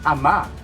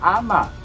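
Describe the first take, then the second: First: The last syllable is stressed, said quickly. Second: The first syllable is stressed and drawn out. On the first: The speaker calls it right. "Dapat ama ... Yun ay mabilis" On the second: The speaker calls it wrong. "Hindi siya ama"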